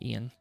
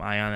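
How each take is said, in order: First: The name is said like 'ee-an'. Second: The name is said like 'eye-on'. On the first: This is the real way to say the name. The speaker calls it right. "I believe it's actually pronounced Ian" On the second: This is a joking way to say the name. The speaker calls it wrong. "Some people call him Ion, as I think like being silly"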